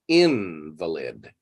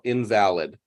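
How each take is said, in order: First: The stress is on the first syllable. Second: The stress is not on the first syllable. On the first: "pronounced with the inflection on in" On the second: Something is not valid. "meaning not valid"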